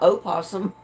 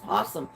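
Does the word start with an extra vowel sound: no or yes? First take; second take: yes; no. First: The word starts with an extra vowel before p. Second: The word starts directly with a p sound. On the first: The speaker calls it wrong. "It's not opossum" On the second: The speaker calls it right. "It's possum"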